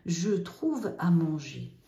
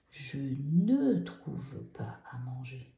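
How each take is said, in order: First: Slow, careful "Je trouve à manger"; slow model sentence. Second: Slow, careful "Je ne trouve pas à manger"; slow model negation. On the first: Teacher modelling the affirmative slowly. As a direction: read it out slowly for the class. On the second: Teacher modelling the negative form slowly. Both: Shown as a demonstration. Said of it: "on met le N apostrophe".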